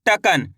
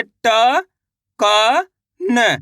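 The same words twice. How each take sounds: First: Said in the usual way. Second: "ट", "क", "न" stretched singly with pauses; slow separate sounds "ट, क, न"; letter by letter. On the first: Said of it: "कैसे पढ़ते हैं". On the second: Shown as a demonstration. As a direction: sound out "ट, क, न" one drawn-out letter at a time. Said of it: "तो आप कैसे पढ़ते".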